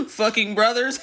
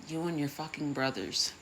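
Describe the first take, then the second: First: Louder, higher, through laughter; laughing repeat. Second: Said in the usual way. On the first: Real, not acted. Speaker repeating the pun to the audience, loud and laughing. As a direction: relish the pun while cracking up.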